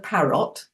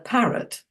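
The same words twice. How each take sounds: First: The second syllable's vowel is fully pronounced. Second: The second syllable's vowel is swallowed. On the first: The speaker calls it wrong. "We don't go parrot or button" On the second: The speaker calls it right. "that's when we usually swallow the second one"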